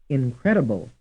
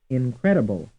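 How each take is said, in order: Both takes have the same delivery.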